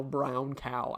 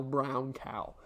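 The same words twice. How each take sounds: First: "brown cow" with round open vowels, drill-style; elocution drill. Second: "brown cow" with drawn-out round vowels; elocution drill. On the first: Streamer warming up diction, elocution drill. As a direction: enunciate "brown cow" like a voice exercise. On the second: Streamer repeating diction warm-up, careful drill. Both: Shown as a demonstration. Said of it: "Ow now, brown cow".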